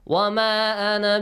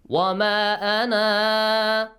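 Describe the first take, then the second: First: The final vowel of ana is short. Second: The final vowel of ana is long. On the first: The reciter continues into the next word. "if you connect it to the next words, ... you don't read that alif" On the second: The reciter pauses after this word. "If you stop, you pronounce that"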